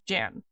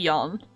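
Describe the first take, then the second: First: The name is pronounced the English way. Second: The name is pronounced the Dutch way. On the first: "Everyone just kind of calls it Jan" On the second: "It could be Jan, but that's the Dutch pronunciation"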